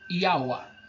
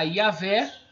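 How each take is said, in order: First: The name ends with an 'a' vowel. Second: The name ends with an 'e' vowel. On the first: "ficaria Iaua, que é o que eu creio" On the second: "essa vocalização desse E aqui deveria ser A"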